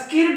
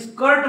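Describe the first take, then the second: First: The vowel is read like the written 'i'. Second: The vowel is an 'er' sound. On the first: This is how the spelling rule would have it. "याला स्किर्ट म्हणायला पाहिजे" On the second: This is how people actually say it. "पण तुम्ही स्कर्ट म्हणतात"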